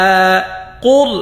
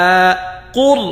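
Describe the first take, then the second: No difference in how they are said.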